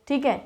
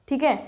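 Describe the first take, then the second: The two takes are said the same way.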